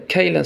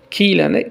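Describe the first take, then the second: First: کیلن said as "kaylan", with an "ay" in the first syllable; the teacher models "kaylan" for کیلن carefully; correct form. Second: کیلن said as "kilen", with a plain long i and a rising end; the teacher tries the "kilen" reading of کیلن; kilen variant. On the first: Persian teacher giving students the correct کیلن. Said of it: "اما کیلن صحیح تر است". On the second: Persian teacher showing the less preferred form of کیلن. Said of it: "کیلن صحیح است". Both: Shown as a demonstration.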